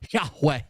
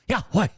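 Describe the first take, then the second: First: The word is said in a plain, ordinary voice. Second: The word is said breathlessly, like panting exhaustion. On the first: The speaker calls it wrong. "They're not even saying it right" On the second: The speaker calls it right. "It sounds like you're exhausted running from someone"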